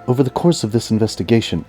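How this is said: It is said in an impression of Scully.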